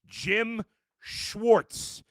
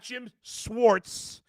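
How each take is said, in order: First: The surname begins with a 'sh' sound. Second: The surname begins with a plain 's' sound. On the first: The speaker calls it right. "Like S H and then Warts" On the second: The speaker calls it wrong. "It's not"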